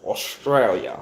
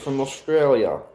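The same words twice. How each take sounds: First: Put-on Australia said slow and lower in an Australian accent, Ostrail-ya. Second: Said in the usual way. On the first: Streamer imitates how Australians say Australia, in an Australian accent. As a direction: copy the Australian way of saying Australia. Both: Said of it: "I like how Australians say the word Australia".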